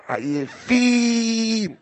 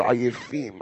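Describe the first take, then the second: First: עייפים with the last vowel stretched very long; drawn-out word. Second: Said in the usual way. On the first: Shown as a demonstration. Rabbi mocking a family of tired people, long drawl. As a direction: drag עייפים right out.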